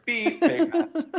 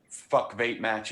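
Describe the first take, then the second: First: High beep over the curse word; censor bleep. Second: Said in the usual way. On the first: Shown as a demonstration. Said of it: "you just hear". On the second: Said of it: "when you say".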